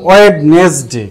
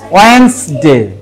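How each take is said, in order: First: The d in the first syllable is pronounced. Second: The d in the first syllable is silent. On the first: The speaker calls it wrong. "ছোটবেলায় আমরা এটা পড়তাম" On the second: The speaker calls it right. "এই যে জিটা বাদ দিয়া উচ্চারণ করবা তাহলে হয়ে যাবে"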